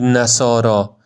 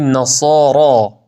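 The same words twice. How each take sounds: First: The final r sound is thin and light. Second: The final r sound is thick and heavy. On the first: The speaker calls it wrong. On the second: The speaker calls it right.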